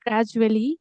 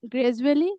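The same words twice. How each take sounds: First: "gradually" with an open "a": GRAD-joo-ally; corrected pronunciation. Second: "gradually" with an "e" sound: GRED-joo-ally; habitual mispronunciation. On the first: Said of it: "it is actually gradually". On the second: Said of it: "I was saying gradually, at it, it is actually gradually". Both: Shown as a demonstration.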